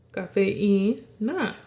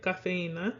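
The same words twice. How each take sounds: First: Slow "cafeína", the í held apart from the e; careful teacher's "cafeína", í as its own syllable; separated vowels. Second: Said in the usual way. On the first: Shown as a demonstration. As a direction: draw out "cafeína" with stress on the í. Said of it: "wants to be broken up away from that E". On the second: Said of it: "when you break it up in syllables".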